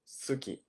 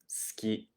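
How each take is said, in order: First: The u after the s is clearly voiced. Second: The u after the s is dropped. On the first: The speaker calls it wrong. "We don't really say it like that" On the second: The speaker calls it right. "It's more like skiing"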